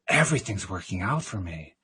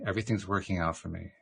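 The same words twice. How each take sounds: First: It is said dramatically, full of feeling. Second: It is said flatly, with no feeling.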